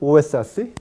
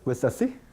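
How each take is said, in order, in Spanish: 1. La o es una vocal lenta y plena. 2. La o se vuelve un sonido rápido, parecido a una consonante. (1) "en el habla lenta" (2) "en habla rápida, ... se convierte en una consonante"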